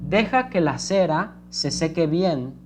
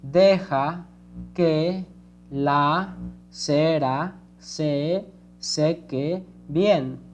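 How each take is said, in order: First: It is read smoothly, in one flowing phrase. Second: It is read slowly, word by word.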